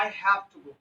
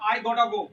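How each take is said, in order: First: "Have to" is said fully as two words. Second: "Have to" is reduced to one word, "gotta". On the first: "तो आदमी इसको बोलता है" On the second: "इस हैव टू को गोटा ही बोलते हैं शॉर्टकट में"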